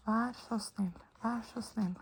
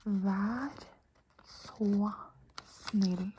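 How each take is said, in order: First: Said in the usual way. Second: Slow, one word at a time; spaced-out model of a phrase; teacher's demonstration. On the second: Shown as a demonstration. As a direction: pause after each word for the learner. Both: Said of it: "I'll say it for you".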